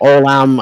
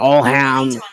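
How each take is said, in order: First: The middle h sound is silent. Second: The middle h sound is clearly pronounced. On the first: The speaker calls it right. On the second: The speaker calls it wrong.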